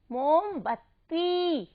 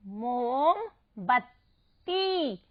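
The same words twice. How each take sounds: First: मोमबत्ती slow but joined, final ती held; long ī ending. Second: मोमबत्ती very slow, in separate pieces, ती held; syllable by syllable. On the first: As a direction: stretch only the end of मोमबत्ती. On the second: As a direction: sound out मोम, बत, ती for मोमबत्ती. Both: Shown as a demonstration. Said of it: "इसको ऐसे ही उच्चारित कीजिएगा".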